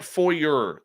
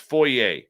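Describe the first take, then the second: First: The word is said the American way. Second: The word is said a non-American way. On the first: The speaker calls it wrong. "That's the American way of saying it" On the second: The speaker calls it right. "The proper pronunciation is foyer"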